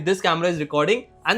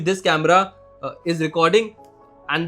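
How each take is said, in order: First: The pause comes after the word recording. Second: The pause comes after the word camera. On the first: The speaker calls it right. "सही जगह पे pause लेना ... ऐसे ये better sentence हुआ" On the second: The speaker calls it wrong. "अगर मैं गलत जगह पे पॉज़ ले लूँ"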